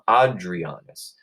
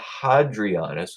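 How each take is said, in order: First: The name begins without an h sound. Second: The name begins with an h sound.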